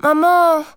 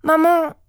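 First: High, loud tearful plea; child on the verge of tears. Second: Put-on high, loud child's cry. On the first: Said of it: "les larmes aux yeux". (au bord des larmes) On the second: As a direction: call urgently after your mother. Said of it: "s'écria Moya en lui courant après". (cri pressant d'enfant) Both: A narrator's reading.

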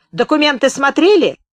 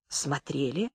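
First: High, loud demanding question; shouted interrogation. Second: Very soft, low reply, lifting at the end; meek answer. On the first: Gunman interrogating the journalist about papers, loud and high. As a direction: bark out the question, pitched up. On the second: Journalist answering the shouting gunman, meek and hushed. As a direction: answer almost inaudibly, cowed. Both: A narrator's reading.

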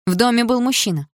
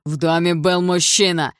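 First: Higher, loud defiant mocking echo; defiant retort. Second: Loud, slow accusing shout; angry accusation. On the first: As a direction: throw his words back at him. Вдруг сказала я. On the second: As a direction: hammer it at her. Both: A narrator's reading.

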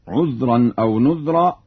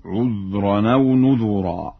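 First: Said in the usual way. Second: نذرا as "nudhuraa", with "u" after dh; slow recitation, three syllables in نذرا, "nu-dhu-raa"; damma on dhal. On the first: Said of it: "يقرأ بضم الذال". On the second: Shown as a demonstration. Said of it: "يقرأ بضم الذال في لفظ نذرا". (نذرا بضم الذال)

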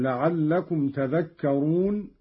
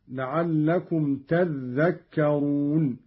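First: Said in the usual way. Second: تذكرون with a doubled dhal, "tadhdhakkarun"; Qalun's doubled dhal. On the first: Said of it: "قرأ قالون بتشديد الذال". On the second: Shown as a demonstration. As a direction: hold the "dh" of تذكرون double, "tadh-dhak-ka-run". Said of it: "قرأ قالون بتشديد الذال هكذا". (تذكرون بتشديد الذال)

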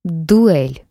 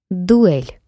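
First: Loud growled challenge; growling dog voice. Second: Answering challenge. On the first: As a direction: growl the word like a beast. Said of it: "прорычал он". (рычащий вызов) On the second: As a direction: shout back the challenge. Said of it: "откликнулся его противник с земли". (громкий ответный вызов) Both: Acted.

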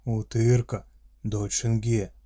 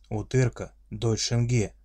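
First: Loud gruff orc growl; friendly monster voice. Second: Friendly monster voice. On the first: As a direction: growl it with fatherly pride. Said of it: "прорычал орк". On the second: Orc repeats claim. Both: Acted.

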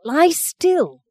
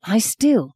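First: Higher, strained insistence on Lie still; harsher repeated command. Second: Said in the usual way. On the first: Acted. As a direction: push the second Lie still up and sharper.

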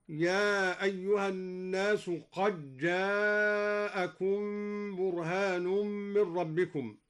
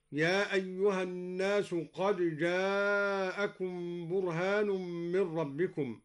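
First: Slow recitation, "قد جاءكم" run together as qaj-jaa; dal assimilated into jim. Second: Slow recitation, "قد جاءكم" with dal and jim kept separate; recitation without assimilation. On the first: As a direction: merge the dal of "قد جاءكم" into a doubled jim, qajjaakum. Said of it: "قرأ الدوري بإدغام الدال في الجيم هكذا". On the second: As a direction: say the dal in "قد جاءكم" as its own letter before the jim. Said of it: "قرأ الدوري بإدغام الدال في الجيم". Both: Shown as a demonstration.

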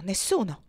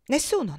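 First: Said in the usual way. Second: Emphatic no. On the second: Acted. Topsy insists, repeated.

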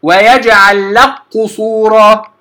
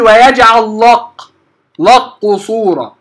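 First: لك قصورا with a thin lam merged into qaf, slow; correct light lam. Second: لق with a thick, heavy lam, slow; wrong heavy lam. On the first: Teacher showing students the correct light lam, slow. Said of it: "وانتبه حتى لا أفخم اللام". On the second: Teacher showing students the wrong heavy lam in لق. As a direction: darken the lam of لق on purpose, slowly. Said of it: "حتى لا أفخم اللام، لا أقول ... خطأ". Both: Shown as a demonstration.

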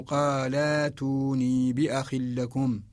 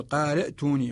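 First: Slow قال ائتوني, drawn-out laa into tooni; hamza as long aa. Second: قال ائتوني as qaala'tooni, glottal stop after short la; original form with hamza. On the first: Teacher showing the substitution, قال ائتوني slowly with long aa. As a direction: stretch qaa-laa-tooni slowly, no glottal stop. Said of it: "نجعلها حرف مد مجانس للفتحة". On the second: Teacher showing the original, قال ائتوني with hamza sounded. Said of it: "والأصل". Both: Shown as a demonstration.

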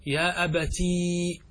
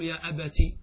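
First: Very slow, final ee of أبتي held long; wrong added ya. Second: Quick short "ti" closing أبتي; ya dropped. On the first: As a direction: drag أبتي out to a long "abatiii". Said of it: "لا تجمع بين الياء والتاء". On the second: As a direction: end أبتي on a short i, "abati". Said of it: "فنحن نحذف الياء". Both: Shown as a demonstration.

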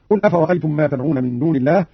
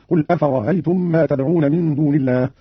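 First: Said in the usual way. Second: "أفرأيتم" with its second hamza eased; softened second hamza. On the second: Shown as a demonstration. Teacher demonstrates Qalun's reading, "أفرأيتم" with eased second hamza. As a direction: glide through "أفرأيتم" without a hard glottal stop before -aytum. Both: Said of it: "سهل قالون الهمزة الثانية".

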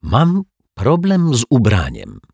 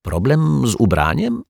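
First: Slow, higher-pitched awkward confession; hesitant, embarrassed statement with falling end; embarrassed admission. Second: High, curious echo question; probing, with the pitch lifted at the end; prompting question. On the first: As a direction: own up awkwardly, drawing the words out. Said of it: "mruknął zaczerwieniony pan Mietek". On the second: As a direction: repeat it as a question, fishing for more. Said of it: "ciągnął go za język detektyw Pozytywka". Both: A narrator's reading.

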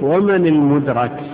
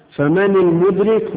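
First: "المدرك" as al-mudrak, with a before the k; "المدرك" pronounced mudrak, the one reached; passive participle form. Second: "المدرك" as al-mudrik, with i before the k; "المدرك" pronounced mudrik, the one who reaches; active participle form. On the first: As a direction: say "المدرك" slowly with fatha on the ra. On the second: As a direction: say "المدرك" slowly with kasra on the ra. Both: Shown as a demonstration. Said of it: "في عندنا متقدم وفي متأخر".

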